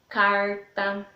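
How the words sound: It is said in a rural caipira accent. "O sotaque caipira é aquele que puxa bem o R"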